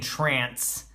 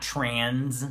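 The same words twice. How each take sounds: First: "trance" with the broad ah vowel of trance, not trans; pronunciation. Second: "trans" with the short flat a of trans; pronunciation. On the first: Reviewer corrects the word, saying "trance" carefully. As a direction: say "trance" like the dance music word. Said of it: "I'm saying trance". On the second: Reviewer contrasts the word "trans" with trance, plainly. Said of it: "I'm saying trance, not trans". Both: Shown as a demonstration.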